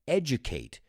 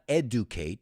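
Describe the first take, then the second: First: The first syllable sounds like 'edge'. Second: The first syllable sounds like plain 'ed'. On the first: The speaker calls it right. "it's edge, like edge" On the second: The speaker calls it wrong. "It's not educate"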